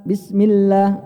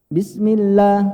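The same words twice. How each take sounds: The two takes are said the same way.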